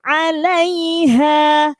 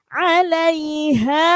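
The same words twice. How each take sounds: Both takes have the same delivery.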